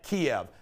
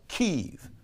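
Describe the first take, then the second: First: The name is said in its Americanized form. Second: The name is said in its current form. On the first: This is the name people always used. "everybody always called it Kiev" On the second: This is the name used now. "Now it's Kyiv"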